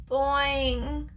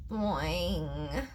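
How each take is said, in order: First: Drawn-out boing in a frog voice; a feeble twangy frog reply, held long; weak frog croak. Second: Low, soft, drawn-out boing; very weak frog croak. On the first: Hungry frog answering his hamster friend, weakly. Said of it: "he replied weakly". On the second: Starving frog answering the hamster, very weakly. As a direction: let the frog's boing sag, low and feeble. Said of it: "Frog sounded even weaker this time". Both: A narrator's reading.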